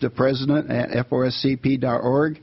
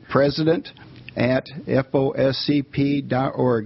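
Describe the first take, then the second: First: It is said at a normal speed. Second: It is said slowly and deliberately.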